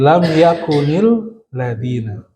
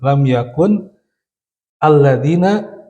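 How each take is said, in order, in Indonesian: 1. Yakun langsung menyambung ke ladzina dengan vokal penghubung. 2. Yakun dan alladzina diucapkan sebagai kata yang terpisah. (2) "Jadi lam yakun sebenarnya di asal dasarnya"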